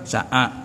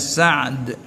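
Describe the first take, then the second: First: An extra vowel follows the middle consonant. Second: The middle consonant has no vowel after it. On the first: "mudah Sa'ad" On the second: "bagi dia mati tengah"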